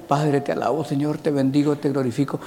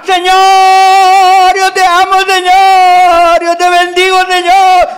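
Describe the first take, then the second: First: Soft, drowsy half-asleep praying; sleepy mumbled prayer. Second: High, loud, full-voice rancho prayer cry; shouted prayer. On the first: Preacher mocks today's sleepy quiet prayer. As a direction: murmur it like you're nodding off. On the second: Preacher imitates old village church praying loudly. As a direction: cry out to the Lord at the top of your lungs. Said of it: "allá en mi rancho oraban". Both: Retold or imitated.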